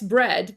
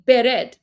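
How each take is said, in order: First: The b and r are joined with no vowel. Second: A vowel is inserted between b and r. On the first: The speaker calls it wrong. "it wouldn't be S bread" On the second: The speaker calls it right. "vowel between the B and the R"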